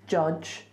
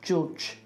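First: The word is said with a standard vowel. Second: The word is said with a Birmingham vowel. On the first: "Not judge"

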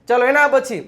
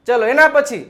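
The two takes are said the same way.

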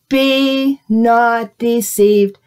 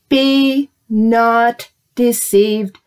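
First: It is said at a normal pace. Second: It is said more slowly.

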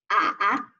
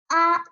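First: The pitch dips low, then rises. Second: The pitch stays high and level. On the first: "三声" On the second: "一声"

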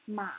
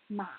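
The two takes are said the same way.

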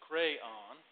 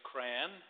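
First: It is said in a Deep South accent. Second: It sounds close to the word crown.

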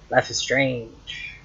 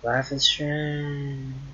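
First: It is said in a plain, ordinary voice. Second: It is said in a dazed, drawn-out voice. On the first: The speaker calls it wrong. "That's not how you say it" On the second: The speaker calls it right. "Like you're high, but you're not"

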